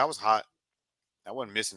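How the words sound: It is said offhandedly, like nothing special. The performance was treated as ordinary. "You said it like it was just it was just you know not natural"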